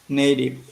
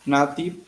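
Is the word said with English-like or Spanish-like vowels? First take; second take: English-like; Spanish-like. First: The vowels sound like English vowels. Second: The vowels sound like Spanish vowels. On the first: This is how the speaker says it now. The speaker calls it right. "and now I say native" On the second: This is how the speaker said it in the past. The speaker calls it wrong. "before I used to say native"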